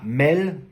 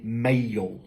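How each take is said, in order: First: The vowel is a single plain vowel. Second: The vowel glides as a diphthong. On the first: The speaker calls it wrong. "pas mel" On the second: The speaker calls it right. "comme si je rajoutais une syllabe supplémentaire"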